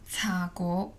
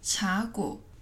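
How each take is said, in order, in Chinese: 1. 这个词用粤语说。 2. 这个词用普通话说。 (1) "广东话" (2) "国语"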